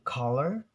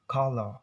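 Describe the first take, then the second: First: "color" with a clear final r; American pronunciation. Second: "color" as kuh-luh, no final r; R-less British pronunciation. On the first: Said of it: "color in American". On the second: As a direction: drop the r from the end of "color". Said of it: "they will pronounce it like color". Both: Shown as a demonstration.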